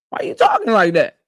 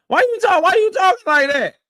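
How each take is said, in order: First: Said in the usual way. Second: Higher, laughing through it; amused laughing repeat. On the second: Real, not acted. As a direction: crack up while repeating it.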